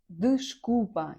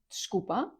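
First: The first syllable is fully pronounced. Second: The first syllable is dropped entirely. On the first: "читається як дишкупа, якщо прям вимовляти по звуках" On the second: "частіше всього ви почуєте як шкупа"

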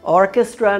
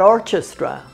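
First: The ch is said as a hard k sound. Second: The ch is said as a soft sound. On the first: The speaker calls it right. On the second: The speaker calls it wrong. "not orchestra"

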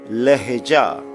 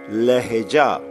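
No difference in how they are said.

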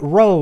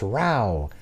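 First: The vowel rhymes with show. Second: The vowel does not rhyme with show. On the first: The speaker calls it wrong. "not row like show" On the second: The speaker calls it right. "it's row"

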